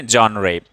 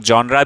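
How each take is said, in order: First: "genre" ending in a clear -ray sound; "genre" read as zhon-ray, final vowel ay; genre as "John-ray". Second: "genre" ending in an open -ra; the variant "genre" with a final ah vowel; genre as "John-ra". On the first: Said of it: "इसको हम क्या पढ़ेंगे". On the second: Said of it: "कुछ लोग genre भी बोलते हैं". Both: Shown as a demonstration.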